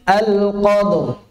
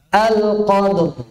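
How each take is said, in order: The two takes are said the same way.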